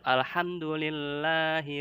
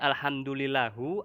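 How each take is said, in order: First: The word ends with an i vowel. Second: The word ends with a u vowel. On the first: The speaker calls it right. "Tetap alhamdulillahi rabbil alamin" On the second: The speaker calls it wrong. "mengubah harokat atau mengubah Al-Qur'an dibacanya alhamdulillahu ... itu har haram"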